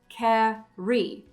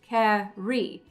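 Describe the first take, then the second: The two takes are said the same way.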